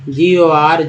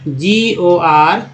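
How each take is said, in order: First: जीओआर spelled again, quicker and falling; quicker second spelling of जीओआर. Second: जीओआर spelled out slowly, rising; slow rising letter-by-letter spelling of जीओआर. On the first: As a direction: repeat जीओआर briskly. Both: Shown as a demonstration. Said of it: "तो जैसे एक word है इसका".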